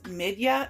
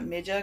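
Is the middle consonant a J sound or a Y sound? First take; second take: Y sound; J sound. First: The middle consonant is a Y sound. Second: The middle consonant is a J sound. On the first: The speaker calls it right. "it should be pronounced like a Y" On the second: The speaker calls it wrong. "I was saying the J like a J"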